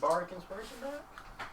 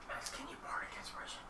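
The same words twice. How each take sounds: First: Higher, slow rising question; voiced repeat. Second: Hushed, unvoiced aside; whisper. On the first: Player repeating the request to Max, high rising question. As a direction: repeat it aloud, pitched up hopefully. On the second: Player asking Max for bardic inspiration, whispered. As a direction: whisper a request across the table. Secret request to another player, unheard. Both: Real, not acted.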